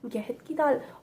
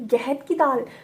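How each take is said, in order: First: It is said softly and unsurely. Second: It is said loudly and firmly.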